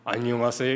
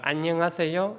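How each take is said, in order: First: A low, deep, heavy male-like voice. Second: A thin, delicate, high female-like voice. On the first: "남자애가 중후한 목소리" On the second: "가날픈 여성 버전으로"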